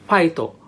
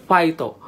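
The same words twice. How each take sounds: Both takes have the same delivery.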